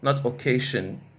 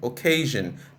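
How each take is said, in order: First: The middle consonant is a voiceless sh sound. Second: The middle consonant is a voiced zh sound. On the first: The speaker calls it wrong. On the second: The speaker calls it right. "sometimes it will come as jin"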